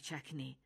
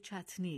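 First: The middle consonant is a k sound. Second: The middle consonant is a t sound. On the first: This is a colloquial form that is easier to say. The speaker calls it wrong. "چکنی یک تلفظ عامیانه و نادرست از این کلمه است" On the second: This is the original form of the word. The speaker calls it right. "این کلمه در واقع چتنی است"

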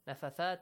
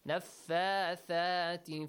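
First: The marked vowels are cut short. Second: The marked vowels are held long. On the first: The speaker calls it wrong. "I got a lot of students who pronounce it this way" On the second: The speaker calls it right. "they have now fixed it"

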